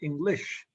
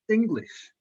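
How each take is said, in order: First: The stress is on the second syllable. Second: The stress is on the first syllable. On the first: The speaker calls it wrong. "I'm not saying here English" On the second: The speaker calls it right. "I'm putting a stress in the first syllable"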